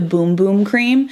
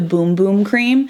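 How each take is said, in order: First: The vowel is long, like in 'boom'. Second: The same.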